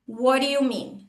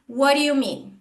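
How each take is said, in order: No difference in how they are said.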